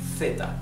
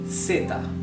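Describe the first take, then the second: First: The word begins with a th sound. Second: The word begins with an s sound. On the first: This is how it is said in Spain. "In Spain it would be theta" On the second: This is how it is said in Latin America. "everybody else pronounces in Latin America"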